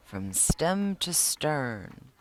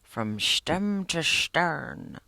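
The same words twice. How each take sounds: First: Slowly savoring each word; slow repeated phrase. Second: Slow mock Irish accent, stem as shtem. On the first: Retold or imitated. Sean repeating his grandfather's saying, slowly. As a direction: draw out stem to stern. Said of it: "I kept repeating that". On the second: Sean imitating Pops's Irish accent, slow and hammed-up. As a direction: drawl it like an Irish grandpa, shtem to shtern. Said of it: "how you talk in your Irish accent".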